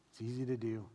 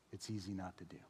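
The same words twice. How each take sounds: First: Said in the usual way. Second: Softer and lower, fading; much softer. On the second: Shown as a demonstration. Pastor quietly naming the easy way out. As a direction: drop it almost to a hush. Contrasting doing and not doing.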